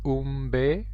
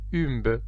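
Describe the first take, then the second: First: The name is pronounced with Spanish sounds. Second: The name is pronounced with French sounds. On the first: "en espagnol on dit Umbe" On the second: "en français on dirait, on prononcerait Umbe"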